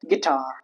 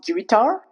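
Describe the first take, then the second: First: The U after G is silent. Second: The U vowel is pronounced after G. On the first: The speaker calls it right. "but guitar" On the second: The speaker calls it wrong. "It's not guitar"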